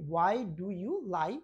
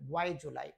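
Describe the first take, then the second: First: Each word is said separately and fully. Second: "Do you" blends into one quick "ju" sound.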